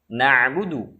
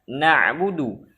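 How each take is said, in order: No difference in how they are said.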